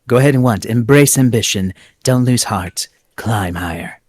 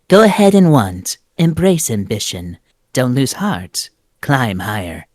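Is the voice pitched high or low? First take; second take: low; high. First: It is voiced at a lower pitch. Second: It is voiced at a higher pitch.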